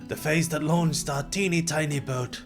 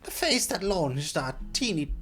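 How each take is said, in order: First: It is said in a deeper voice. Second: It is said in a higher voice.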